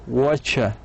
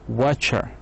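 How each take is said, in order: No difference in how they are said.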